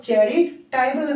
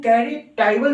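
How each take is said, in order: First: Second चैरिटेबल opens with ch, "chai-re-tai-bal"; ch-sound pronunciation. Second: First चैरिटेबल opens with k, "kai-re-tai-bal"; k-sound pronunciation. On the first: Teacher shows the other reading, ch-sound pronunciation. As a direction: say चैरिटेबल with ch, not k. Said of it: "और चैरिटेबल भी पढ़ते हैं". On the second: Teacher shows one way to read it, k-sound pronunciation. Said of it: "इसको चैरिटेबल भी पढ़ते हैं". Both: Shown as a demonstration.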